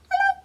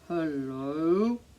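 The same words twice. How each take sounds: First: It is said in a very high voice. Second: It is said in a very low voice.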